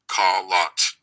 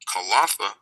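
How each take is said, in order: First: The name is said with two syllables. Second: The name is said with three syllables. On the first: This is the form used by Arabic speakers. "the Arabs pronounce it Kalat" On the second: This is the speaker's own community's form. "we pronounce it Kalatha"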